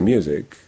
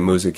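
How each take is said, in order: First: The word is said with a y glide. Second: The word is said without a y glide. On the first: The speaker calls it right. "you say music" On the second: The speaker calls it wrong. "you don't say music"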